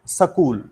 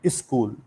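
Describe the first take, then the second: First: It is said with a Haryanvi regional accent. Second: It is said with an Uttar Pradesh regional accent. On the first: "Haryana वाले बोलते हैं" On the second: "from U P they will call"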